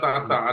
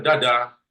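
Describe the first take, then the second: First: Each syllable begins with a t-like sound. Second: Each syllable begins with a d sound. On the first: The speaker calls it right. "bacanya tata" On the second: The speaker calls it wrong. "Ada orang baca dada. Bukan"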